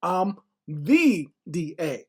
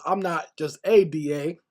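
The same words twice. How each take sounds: First: "the" said as a long, drawn-out "thee"; slow right down and stretch "the"; retold self-important claim, heavy weight on "the"; stress on THE. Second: "a" set apart in a retold quote; retelling her, weight on "a"; stress on A. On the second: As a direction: lean on "a" as merely one of many. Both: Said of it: "and she goes".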